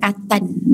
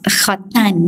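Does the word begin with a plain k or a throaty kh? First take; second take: plain k; throaty kh. First: It begins with a plain k sound. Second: It begins with a throaty kh sound. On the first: The speaker calls it wrong. "Setengah orang kata katan" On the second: The speaker calls it right. "Katan tu daripada kha, khatan"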